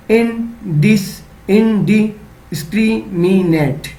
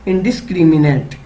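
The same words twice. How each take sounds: First: indiscriminate drawn out slowly in chunks; slow sounding out. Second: Said in the usual way. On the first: Shown as a demonstration. Teacher showing children how to chunk a word, slowly. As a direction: spell indiscriminate out slowly, syllable by syllable. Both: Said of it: "एक साथ पढ़ना है".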